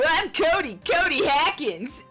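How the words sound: It is said in a put-on character voice.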